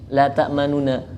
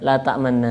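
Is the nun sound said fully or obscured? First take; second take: fully; obscured. First: The nun sounds are each said fully. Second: The nun sound is obscured and blended. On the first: "Jadi dibacanya biasa" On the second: "Jadi disamarkan di sini"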